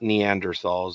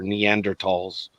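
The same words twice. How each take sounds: First: The middle consonant is a soft 'th' sound. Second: The middle consonant is a hard 't' sound. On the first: The speaker calls it wrong. "they're not Neanderthals" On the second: The speaker calls it right. "the T H is pronounced like a T in German"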